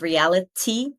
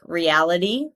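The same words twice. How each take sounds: First: The middle t sounds like a clear t. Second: The middle t sounds like a soft d. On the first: "instead of" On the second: "we make this tiny d"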